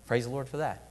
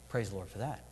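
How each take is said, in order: First: Said in the usual way. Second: Quiet. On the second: Shown as a demonstration. Preacher echoing his own praise to the congregation, much softer and lower. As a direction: repeat it much softer and lower, almost to yourself.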